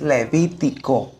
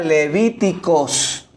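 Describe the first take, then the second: First: The word ends without an s sound. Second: The word ends with an s sound. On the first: The speaker calls it right. "es Levítico" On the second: The speaker calls it wrong. "yo decía Levíticos. No"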